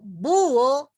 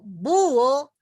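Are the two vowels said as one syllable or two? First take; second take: two; two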